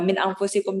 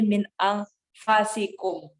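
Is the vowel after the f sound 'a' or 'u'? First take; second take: u; a. First: The vowel after the f is u. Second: The vowel after the f is a.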